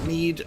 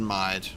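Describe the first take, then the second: First: The vowel sounds like the 'ee' in 'need'. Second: The vowel sounds like the 'i' in 'ride'. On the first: The speaker calls it right. "Mead sounds so much better" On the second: The speaker calls it wrong. "than Mide"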